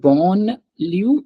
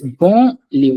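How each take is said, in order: First: A clear N sound is pronounced. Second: The vowel is nasal with no N sound. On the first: The speaker calls it wrong. "It's not" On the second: The speaker calls it right. "I don't say N sound at all"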